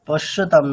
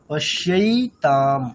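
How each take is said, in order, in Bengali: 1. দ্বিতীয় শব্দাংশে একটি সাধারণ স্বরধ্বনি আছে। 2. দ্বিতীয় শব্দাংশে 'ai' ডিফথং আছে। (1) "পশ্যতাম না ম্যাডাম" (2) "দেখুন এইভাবে"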